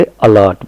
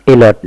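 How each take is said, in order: First: "अलर्ट" said uh-lert; short uh opening on "अलर्ट"; initial short "uh". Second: "अलर्ट" said wrongly as ay-lert; full ay opening on "अलर्ट"; initial "ay". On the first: Teacher correcting the mistake, uh-lert pronunciation. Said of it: "बल्कि अलर्ट बोलेंगे". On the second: Teacher showing what not to say, ay-lert pronunciation. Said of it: "अलर्ट नहीं बोलेंगे". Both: Shown as a demonstration.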